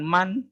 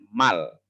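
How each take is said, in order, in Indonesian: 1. Suku kata ini berakhir dengan bunyi n. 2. Suku kata ini berakhir dengan bunyi l. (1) "bukan man" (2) "tapi cara membacanya mal"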